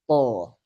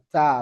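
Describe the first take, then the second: First: The syllable sounds heavy with a rounded o-like vowel. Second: The syllable sounds light with an open a vowel. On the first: The speaker calls it wrong. "bukan to" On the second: The speaker calls it right. "Terus istifal. Ta"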